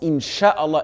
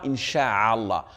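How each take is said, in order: First: The middle syllable is a short 'sha'. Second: The middle syllable is a lengthened 'sha'a'. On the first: If God wills. The speaker calls it right. "On prononce Inch'Allah" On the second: The meaning changes to spreading. The speaker calls it wrong. "et non pas Incha'Allah, car cela change totalement la signification"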